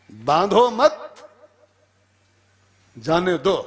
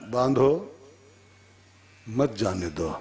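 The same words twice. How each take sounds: First: Slow "बांधो मत" rising high and loud, long pause, then "जाने दो"; "मत" joined to "बांधो", lifted before the break; pause after मत. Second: "मत" joined to "जाने दो" after a clear break; pause after बांधो. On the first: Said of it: "उसको अर्थ समझ में नहीं आया". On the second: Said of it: "अब लिख दिया पर्ची पर". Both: Shown as a demonstration.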